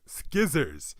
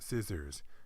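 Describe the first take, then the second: First: The word begins with a hard 'sk' sound. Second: The word begins with a plain 's' sound. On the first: The speaker calls it wrong. "make you think it's pronounced skizzers" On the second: The speaker calls it right. "it's actually pronounced scissors"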